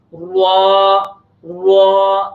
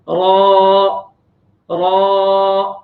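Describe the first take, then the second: First: را said with rounded lips so it sounds like وا; wrong rounded ra. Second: Heavy را with flat, unrounded lips; correct ra. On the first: Teacher showing students the common mistake, lips rounded on را. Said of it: "تو یہ صحیح نہیں ہے". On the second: Teacher showing students the correct heavy را, no rounding. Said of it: "را میں ہم خاص طور پر ہونٹوں کو گول نہیں کریں گے". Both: Shown as a demonstration.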